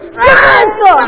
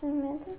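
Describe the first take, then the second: First: The name is said loudly and firmly. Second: The name is said quietly and hesitantly.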